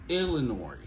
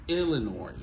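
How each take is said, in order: No difference in how they are said.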